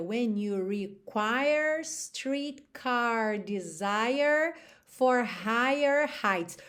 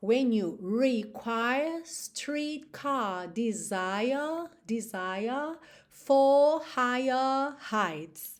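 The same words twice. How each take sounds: First: Slow line with American R after every vowel; slow American-R lyric; American accent. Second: Slow sung line, no R after vowels, long vowels; slow British sung lyric; British accent. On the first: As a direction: sing with curled American Rs, slowly. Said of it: "no americano a gente teria". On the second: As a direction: sing it British, stretch the vowels. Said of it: "Olha quanta diferença". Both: Shown as a demonstration.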